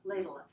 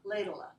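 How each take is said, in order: First: The v is dropped, leaving a short schwa. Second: The same.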